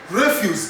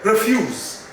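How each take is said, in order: First: "Refuse" as REF-yoos, meaning rubbish; first-syllable stress. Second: "Refuse" as ri-FYOOZ, the verb; second-syllable stress. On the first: Teacher shows the noun for garbage, "Refuse" as REF-yoos. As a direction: hit "Ref", light "use". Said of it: "garbage, litter". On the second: Teacher shows the verb, "Refuse" stressed on the second syllable. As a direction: lean on "fuse". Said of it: "which is a verb". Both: Shown as a demonstration.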